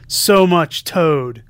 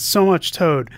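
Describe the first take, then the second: First: "So much Toad" stretched slowly, each word drawn out and louder; slow drawn-out repeat. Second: Said in the usual way. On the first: Retold or imitated. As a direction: drag out the punchline slowly and loudly. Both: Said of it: "quoting something that Ryan and I said".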